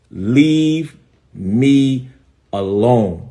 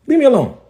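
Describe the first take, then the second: First: One word at a time, long pauses; emphatic warning. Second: High, quick burst falling at the end; insistent demand. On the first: Pastor warning off a rival, slow word-by-word demand. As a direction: stretch each word and leave a gap after it. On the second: Pastor warning off a rival, high quick insistent demand. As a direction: fire it out high in one breath. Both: Real, not acted.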